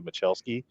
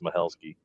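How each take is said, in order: First: The middle consonant is a harder 'ch' or 'k' sound. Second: The middle consonant is a soft breathy 'h' sound. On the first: This is how the speaker habitually said the name. The speaker calls it wrong. "I always say Machelski" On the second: This is how the name's owner says it. The speaker calls it right. "he corrected me one time, said it's Mahelski"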